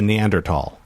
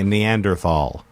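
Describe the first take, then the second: First: The last syllable starts with a plain t sound. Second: The last syllable starts with a th sound. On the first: The speaker calls it right. "there's no H" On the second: The speaker calls it wrong. "My whole life, up until about two years ago, I would say Neanderthal"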